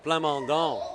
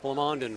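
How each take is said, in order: First: The name is said with a French pronunciation. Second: The name is said with an English pronunciation. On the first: This is how Montreal speakers say the name. "I'm an ex-Montrealer, so we pronounce that Plamondon" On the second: This is how Alberta speakers say the name. "I think it's Plamondon for all, all Alberta"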